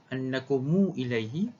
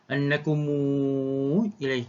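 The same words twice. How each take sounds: First: The vowel after mu is held briefly. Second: The vowel after mu is held very long. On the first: "Silah dengan dua harakat" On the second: "silah dengan isba', maksudnya silah campur dengan enam harakat"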